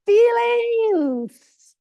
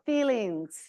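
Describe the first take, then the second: First: High, loud shouted word; a mock-dramatic cry across the room; emphatic shout. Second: Said in the usual way. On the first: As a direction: shout it so Justin hears it wherever he is. Repeats word to Justin, shouting.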